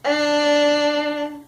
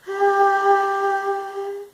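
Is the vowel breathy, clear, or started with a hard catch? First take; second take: hard catch; breathy. First: The vowel starts with a hard catch. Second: The vowel sounds airy, with breath escaping. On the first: "a glottal sound where they're whacking together too hard" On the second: "the breathy is where your vocal folds are coming together but they're not quite meeting"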